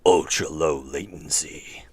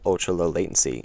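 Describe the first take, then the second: First: The word ultra is said with exaggerated emphasis. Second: The word ultra is said flatly, without emphasis. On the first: The speaker calls it right. "you have to say it like that" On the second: The speaker calls it wrong. "It's not"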